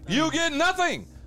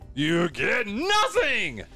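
First: It is said weakly, without much force. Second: It is said with more force and energy.

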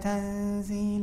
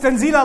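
First: The word is said softly and gently. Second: The word is said forcefully, like an exclamation. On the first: It is an ordinary, calm statement. The speaker calls it wrong. "You don't say that nicely. You don't recite" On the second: It is spoken with great authority as an exclamation. The speaker calls it right. "like that, that means that Allah Azza wa Jal is speaking with great authority"

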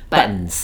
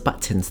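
First: The T in the middle is swallowed, not released. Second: The T in the middle is fully released. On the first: The speaker calls it right. "let's talk about it normally" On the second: The speaker calls it wrong. "There are some people that that use the hard T"

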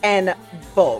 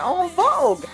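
First: En is pronounced the American way, like N. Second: En is pronounced the French way. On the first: The speaker calls it right. "That's the American pronunciation for the group" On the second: The speaker calls it wrong. "the 2 years that I did French for in high school,... I can't help but say En Vogue"

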